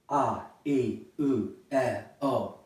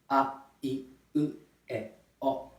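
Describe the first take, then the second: First: The vowels are said with strong, breathy airflow. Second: The vowels are said with light, cut-off airflow. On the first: The speaker calls it wrong. "using the breathing of English" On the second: The speaker calls it right. "if I pronounce this correctly"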